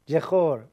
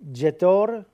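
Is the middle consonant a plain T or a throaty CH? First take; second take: throaty CH; plain T. First: The middle consonant is a throaty CH sound. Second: The middle consonant is a plain T sound.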